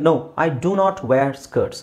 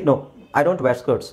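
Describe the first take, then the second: First: It is said emphatically, stressing the full negative. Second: It is said casually, with a contracted negative. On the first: Insisting after being asked the same thing again. "ಆವಾಗ ನಾನು ಒತ್ತಿ ಹೇಳಬೇಕು" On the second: A plain first answer to the question. "Casual ಆಗಿ ಹೇಳಬೇಕಾದ್ರೆ"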